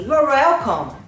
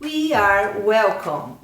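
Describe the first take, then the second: First: It is said quickly with sounds dropped. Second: Every word is said fully and clearly.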